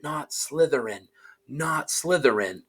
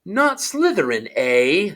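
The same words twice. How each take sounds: First: Softer, urgent inner plea; pleading thought. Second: Higher, amused hat voice; the hat echoing him with interest; small voice. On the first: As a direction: beg silently, under the breath. Harry pleading in his head. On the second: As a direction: tease the boy's plea back. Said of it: "said the small voice". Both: Acted.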